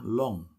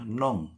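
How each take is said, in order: First: The word begins with an L sound. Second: The word begins with an N sound. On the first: The speaker calls it right. "padahal yang benar itu pakai l ya" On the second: The speaker calls it wrong. "ada sih beberapa yang dengarnya jadi nong ya, pakai n ya"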